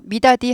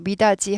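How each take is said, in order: First: The last syllable is said with a hard d. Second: The last syllable is said with a soft j. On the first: It sounds like North Korean speech. The speaker calls it wrong. "미다디 하지 않고" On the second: It sounds like South Korean speech. The speaker calls it right. "미다지 하잖아요"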